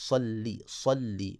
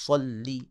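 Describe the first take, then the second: First: صلی slow with a full heavy ص; right tajweed take of صلی; correct heavy sad. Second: صلی with a thin plain س-like ص; wrong light sad. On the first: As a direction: stretch صلی with a thick ص. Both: Shown as a demonstration. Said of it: "صلی نہیں پڑھنا".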